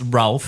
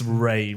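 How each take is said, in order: First: The name is said with an L sound. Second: The name is said without an L sound. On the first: The speaker calls it wrong. "it's not pronounced Ralph" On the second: The speaker calls it right. "It's Ray"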